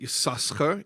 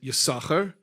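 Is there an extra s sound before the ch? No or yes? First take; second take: yes; no. First: An s sound comes before the ch. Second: No s sound comes before the ch. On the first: Both letters sin are pronounced. The speaker calls it wrong. "you don't pronounce it Yisaschar" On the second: The second letter sin is silent. The speaker calls it right. "you pronounce it Yisachar"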